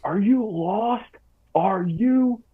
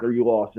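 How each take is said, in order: First: High, drawn-out imitation of a screaming drill sergeant; mock a drill sergeant's scream, stretched out, not at full volume. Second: Said in the usual way. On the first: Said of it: "he's just screaming at me". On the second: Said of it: "he's going off on me".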